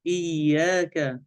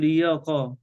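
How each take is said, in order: First: إياك slow, doubled ya and thin light ka; correct light kaf. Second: إياك with a heavy, backed q-like final sound; wrong heavy kaf. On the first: Sheikh models the correct word, slow and light. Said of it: "وحرف الكاف". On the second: Sheikh shows what we don't say, heavy kaf. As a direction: darken the end of "إياك" into a qa. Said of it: "لا نقول إياك". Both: Shown as a demonstration.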